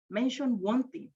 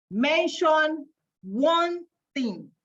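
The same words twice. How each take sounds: First: Said in the usual way. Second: "Mention one thing" drawn out slowly, pitched higher, leaning on "one"; slow, deliberate reveal of "Mention one thing". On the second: Shown as a demonstration. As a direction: stretch every word of "Mention one thing" like a drum roll. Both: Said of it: "read it very slowly".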